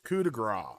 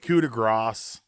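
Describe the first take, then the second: First: The final S sound of grace is silent. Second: The final S sound of grace is pronounced. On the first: The speaker calls it right. "You don't say the S" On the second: The speaker calls it wrong. "They might Cole just say coup de grace"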